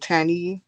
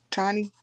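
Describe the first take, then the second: First: "Tani" as TAN-ee, vowel of "cat"; name said TAN-ee. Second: "Tani" as TAH-nee, open ah; name said TAH-nee. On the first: Vlogger unsure of a viewer's name, tries "Tani" as TAN-ee. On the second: Vlogger checking a viewer's name, offers "Tani" as TAH-nee. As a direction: say "Tani" with the vowel of "father". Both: Shown as a demonstration. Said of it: "am I saying it wrong?".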